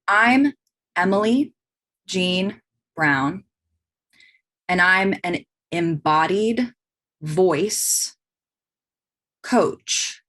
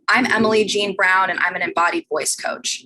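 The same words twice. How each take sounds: First: It is said slowly, weighing each word. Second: It is said at a plain, ordinary pace. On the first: "or I could drop it in. ... I'm considering each word choice" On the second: "I could just say that"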